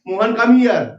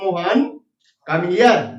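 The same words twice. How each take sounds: First: It runs on with no pause after the name. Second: There is a short pause after the name. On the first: The name is the subject of a statement. The speaker calls it wrong. "वाक्य गलत हो गया क्योंकि ये sentence बन गया, Mohan subject हो गया" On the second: The name is used to call someone. The speaker calls it right. "ये सही शब्द हुआ"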